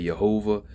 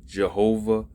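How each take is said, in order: First: "Yehovah" opening on a Y sound; "Yehovah" as yeh-HO-vah; Y-sound pronunciation. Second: "Jehovah" opening on a J sound; "Jehovah" as juh-HO-vah; J-sound pronunciation. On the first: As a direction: start "Yehovah" with Y as in yes. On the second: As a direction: start "Jehovah" with J as in jet. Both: Shown as a demonstration. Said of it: "different pronunciations of the holy name".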